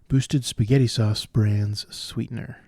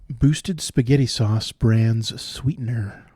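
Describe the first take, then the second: The two takes are said the same way.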